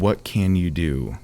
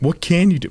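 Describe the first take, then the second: First: The question sounds condescending and dismissive. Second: The question sounds sincere and genuinely curious.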